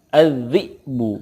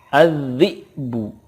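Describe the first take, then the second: The two takes are said the same way.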